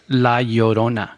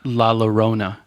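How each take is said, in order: First: The double L is said as a Y sound. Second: The double L is said as an L sound. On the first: The speaker calls it right. "the double L, it translates into a Y sound" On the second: The speaker calls it wrong. "it's not La Llorona, which I've heard a lot of people pronounce"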